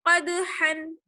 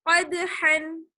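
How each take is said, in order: The two takes are said the same way.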